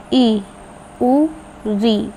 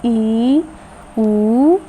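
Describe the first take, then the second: First: ई and उ said short and quick, री with a short i; short vowel sounds for a Hindi lesson. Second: Long vowel sounds for a Hindi lesson. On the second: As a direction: stretch ई and उ to two beats. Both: Shown as a demonstration. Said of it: "जैसे".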